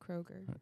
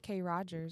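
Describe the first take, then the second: First: It is said as one plain ordinary word. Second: It is split into a fancy two-part name. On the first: The speaker gives the ordinary name. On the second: The speaker jokes that the store is posh.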